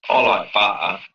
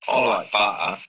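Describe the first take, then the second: The two takes are said the same way.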